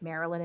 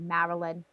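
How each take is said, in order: First: It is said in a neutral accent. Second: It is said in a strong North Jersey accent. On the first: "instead of saying like Maryland" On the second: "it'd be Maryland"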